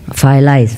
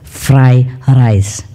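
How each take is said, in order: First: The r sounds are replaced by l sounds. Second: The r sounds are clearly pronounced as r. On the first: The speaker calls it wrong. "I cannot pronounce R" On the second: The speaker calls it right. "learned very hard to pronounce fried rice. Okay, so he got it"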